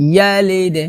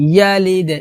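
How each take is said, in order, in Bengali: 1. শেষের d একটা স্পষ্ট প্রতিধ্বনিত ঝাঁকুনি দিয়ে শেষ হয়। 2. শেষের d একটা স্পষ্ট প্রতিধ্বনিত ঝাঁকুনি দিয়ে শেষ হয়।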